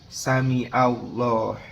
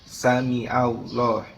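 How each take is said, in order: Both takes have the same delivery.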